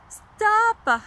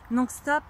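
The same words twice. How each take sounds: First: Loud stop. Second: Said in the usual way. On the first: Shown as a demonstration. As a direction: stop louder and higher, cutting off.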